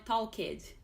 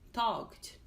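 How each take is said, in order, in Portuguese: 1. A terminação -ed é falada como uma sílaba extra. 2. A terminação -ed não acrescenta sílaba extra. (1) "Não é talked" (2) "o E é silencioso"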